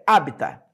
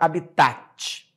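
First: The stress falls on the first syllable. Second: The stress falls on a later syllable. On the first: The speaker calls it right. "A pronúncia correta é habitat. ... Ela é uma palavra proparoxítona" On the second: The speaker calls it wrong. "Não existe a palavra habitat, que muita gente fala"

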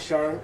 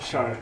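First: The word is said with a high tone. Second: The word is said with a low tone. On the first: It means rise or east. "High tone Shar" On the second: It means incidental, as in incidental points. "this low tone Shar"

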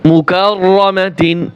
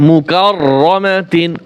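No difference in how they are said.

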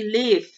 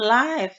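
First: The vowel sounds like 'it'. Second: The vowel sounds like 'eye'. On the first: The speaker calls it right. "tapi live ya" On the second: The speaker calls it wrong. "cara membacanya bukan live ya"

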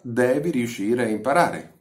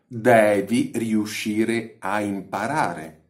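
First: It is spoken at a normal, natural pace. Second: It is spoken slowly with exaggerated articulation.

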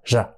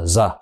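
First: The consonant is a soft, stylish 'zh' sound. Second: The consonant is a plain, hard 'z' sound. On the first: The speaker calls it right. "Nó nói một cách điệu điệu hơn là r" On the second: The speaker calls it wrong. "chứ không phải là giờ"

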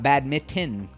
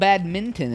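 First: No N sound is heard before the T. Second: An N sound is heard before the T. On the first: The speaker calls it wrong. "and not badminton. I always thought it was badminton. I didn't know there was an N in it" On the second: The speaker calls it right. "it's called badminton"

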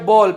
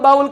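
First: The vowel sounds like 'oh' in go. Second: The vowel sounds like 'ow' in cow. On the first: The speaker calls it right. "એને કહેવાય બોલ" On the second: The speaker calls it wrong. "એને બાઉલ નો કહેવાય"

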